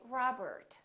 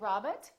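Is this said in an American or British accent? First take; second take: American; British. First: It is said in an American accent. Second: It is said in a British accent. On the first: The speaker calls it right. "Americans would say" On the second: The speaker calls it wrong. "British people would say"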